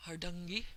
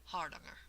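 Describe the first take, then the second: First: Hardangi in an attempted Norwegian accent, ending in "ee"; tentative copy of a Norwegian saying Hardangi; imitated Norwegian pronunciation. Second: Hardanger stressed on the first syllable, with "ah" vowels; careful "HAR-dahng-er" for Hardanger; dictionary pronunciation. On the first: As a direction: Hardangi as "har-DUNG-ee", Norwegian-style. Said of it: "a native Norwegian speaker, and it sounded like". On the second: Shown as a demonstration. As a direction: hit the start of Hardanger, ending in "er". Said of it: "the accent is here on the first syllable".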